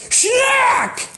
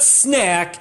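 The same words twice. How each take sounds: First: "schnack" starts with a sh sound, punched very high. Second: "snack" said plainly with an s sound. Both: Shown as a demonstration. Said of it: "It's not snack, it's schnack".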